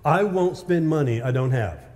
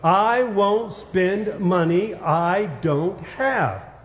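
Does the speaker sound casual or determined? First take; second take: casual; determined. First: It is said in a plain, casual way. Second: It is said firmly, with strong conviction. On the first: "say it with me" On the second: "say it like you actually mean it"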